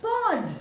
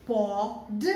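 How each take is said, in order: First: Pod said quick and higher; teacher modelling the fast read; read quickly. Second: Said in the usual way. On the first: Shown as a demonstration. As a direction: pop out Pod fast and bright. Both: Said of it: "Read it quickly".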